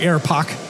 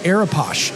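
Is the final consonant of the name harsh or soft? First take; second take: harsh; soft. First: The name ends in a harsh, throaty sound. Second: The name ends in a soft sh sound. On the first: The speaker calls it right. "like a German, like Arapoch?" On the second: The speaker calls it wrong. "I was really worried about the shh at the end"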